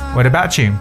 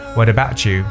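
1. 'About' 和 'you' 连成一气读。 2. 'About' 和 'you' 连成一气读。

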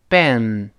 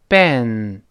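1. 它的元音是英语的 'e'，嘴唇向两边展开。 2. 它的元音是英语的 'e'，嘴唇向两边展开。

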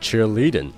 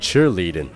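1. 重音在第二个音节。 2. 重音在第一个音节。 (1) "不要读成cheerleading" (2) "重读是在低音节，也就是在cheer 这个词上"

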